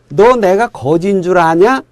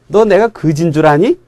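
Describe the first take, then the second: First: The final word ends with a 'nya' sound. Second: The final word ends with a 'ni' sound.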